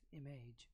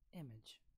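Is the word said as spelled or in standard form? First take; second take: as spelled; standard form. First: The word is said just as it is spelled. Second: The word is said in its standard form. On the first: The speaker calls it wrong. "Because this is written the way it is" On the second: The speaker calls it right. "It is rather pronounced as image"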